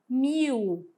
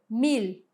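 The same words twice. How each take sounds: First: The final L sounds like a U vowel. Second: The final L is a lateral tongue-raised L. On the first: This is the Portuguese pronunciation. "Esse L, ele ganha o som de U" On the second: This is the Spanish pronunciation. "ele tem um som que a gente chama de lateralizado"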